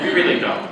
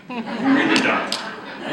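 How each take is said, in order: First: Said in the usual way. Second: Slow, higher, with a laugh on "really"; laughing admission. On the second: Real, not acted. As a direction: chuckle it out like a shared confession. Joking that nobody likes orders.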